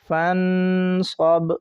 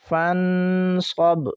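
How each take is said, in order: First: The last consonant ends without a vowel. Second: The last consonant carries a short vowel.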